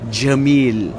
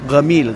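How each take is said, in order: First: The word starts with a j sound. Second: The word starts with a hard g sound. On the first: "Yung jim, for example" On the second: "pati sa mga Misri, yung pagkuha nilang jim, ginagawa lang ga"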